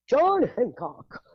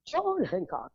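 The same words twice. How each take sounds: First: Mock posh. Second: Said in the usual way. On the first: Mocking posh Concord name.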